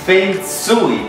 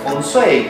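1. Se pronuncia con los sonidos del chino mandarín. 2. Se pronuncia con acento inglés. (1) "de su origen, que es del chino mandarín, es" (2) "en Estados Unidos o en lenguas anglosajonas, pues se pronuncia"

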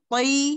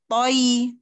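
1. Suku kata itu diucapkan cepat sebagai satu bunyi. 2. Suku kata itu diucapkan panjang dan lambat. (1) "kalau kita apa sudah dibaca yang apa cepatnya toi" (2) "kalau kita lambat-lambat memang nyebutnya seperti toi"

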